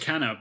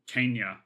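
First: The name ends with a plain 'na' sound. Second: The name ends with a 'nya' sound. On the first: "it was Kenna" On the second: "he pronounced it Kenya or something"

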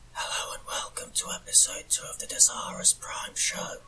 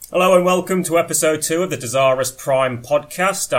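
First: It is said in a whisper. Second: It is said in a normal voice.

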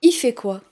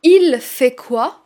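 First: The l of il is dropped. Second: The l of il is pronounced. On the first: "Aussi le « elle » de « il » parfois" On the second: "Au lieu de dire"

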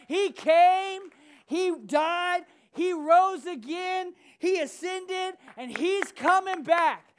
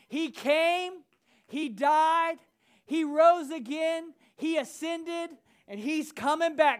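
First: It is said with more passion and energy. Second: It is said in a calm, plain way. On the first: "with a little passion" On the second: "say it with me"

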